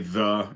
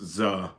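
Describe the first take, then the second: First: The word begins with a 'th' sound. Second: The word begins with a 'z' sound. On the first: "whenever they say the" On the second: "it's using a Z in place of T H"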